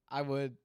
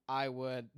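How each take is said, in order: Both takes have the same delivery.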